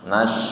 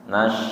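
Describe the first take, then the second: No difference in how they are said.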